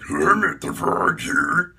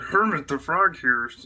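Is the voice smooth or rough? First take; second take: rough; smooth. First: A rough, gravelly frog voice. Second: A smooth, Kermit-like frog voice.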